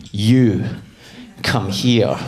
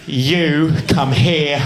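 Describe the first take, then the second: First: Put-on low, halting command in own accent; security guard. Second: Put-on slow English-accented command. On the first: Airport guard ordering a traveller over, low imitated command. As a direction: summon someone with a low order. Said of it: "an Abu Dhabi security guard pointed at me". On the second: Airport guard ordering a traveller over, slow mock English accent. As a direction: summon someone as an English official. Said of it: "I'll just make him English".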